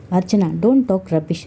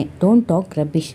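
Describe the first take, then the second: First: Slow, measured mild anger on don't talk rubbish; understated angry husband, slow; angry retort. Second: Don't talk rubbish dragged out word by word; repeating it with heavy deliberate slowness; slow insistent repeat. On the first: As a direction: say don't talk rubbish slowly, a touch cross. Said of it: "ಕೋಪದಿಂದ ಕೇಳಿದ Kiran". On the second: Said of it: "ನಾನು ಮತ್ತೆ ಮತ್ತೆ ಹೇಳ್ತಿದ್ದೇನೆ". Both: A narrator's reading.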